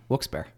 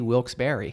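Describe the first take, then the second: First: The second part is shortened and reduced. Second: The second part is said fully, like 'Barry'. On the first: "Right now" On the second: "If I'm not lazy, Wilkes-Barre, because it was Wilkes and Barry"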